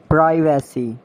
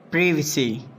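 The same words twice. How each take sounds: First: "Privacy" as PRY-va-see; long I in "Privacy"; mispronounced privacy. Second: "Privacy" as PRIV-uh-see; short I in "Privacy"; British pronunciation. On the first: Acted. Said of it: "you have to correct me". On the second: Shown as a demonstration. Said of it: "exact pronunciation according to the British".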